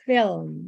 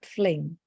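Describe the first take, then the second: First: The L sound comes after the vowel. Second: The L sound comes before the vowel. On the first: The speaker calls it right. "this word is film" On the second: The speaker calls it wrong. "not fling"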